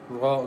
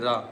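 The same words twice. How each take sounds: First: The R sound is heavy and thick. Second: The R sound is light and thin. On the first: The speaker calls it right. "Ra is thick here because Ra has Fatha on it" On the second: The speaker calls it wrong. "Don't say Ra. Ra is wrong"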